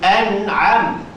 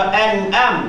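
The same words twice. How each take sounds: First: A glottal stop first, then a pharyngeal consonant. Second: Both consonants are glottal stops. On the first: The speaker calls it right. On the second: The speaker calls it wrong.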